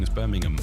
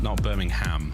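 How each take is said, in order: First: The last syllable is reduced to a weak 'um'. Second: The last syllable is a full 'ham'. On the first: The speaker calls it right. "you say it right" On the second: The speaker calls it wrong. "there's no bovine, we don't have pork involved"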